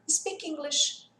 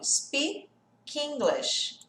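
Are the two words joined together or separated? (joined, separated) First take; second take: joined; separated. First: The two words run together as one. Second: The two words are said separately. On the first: "Aí você gruda tudo" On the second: "Se a gente tivesse que separar"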